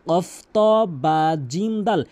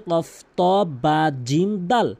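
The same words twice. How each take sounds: No difference in how they are said.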